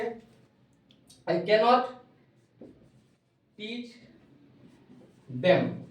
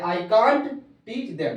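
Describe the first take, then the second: First: The negative is said in full as cannot. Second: The negative is shortened to can't. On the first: "भले ही बोलते हैं I कैन नॉट" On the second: "लोग short में कांट भी बोलता है"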